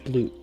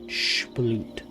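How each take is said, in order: First: The word ends without an added H sound. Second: The word ends with an added H sound. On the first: The speaker calls it right. "It's just sploot" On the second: The speaker calls it wrong. "I added an H in there for no reason"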